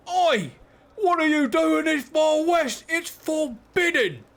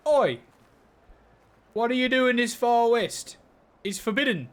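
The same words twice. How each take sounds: First: High, loud, drawn-out Australian holler; hammed-up Aussie yell, pitched way up; Australian accent. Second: Raised, loud Aussie call; more Australian accent. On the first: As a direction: shout it slowly in a put-on Australian accent. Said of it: "was that the accent you wanted?". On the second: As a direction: have another go at a broader Australian accent. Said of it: "More Australian, but perfection". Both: Shown as a demonstration.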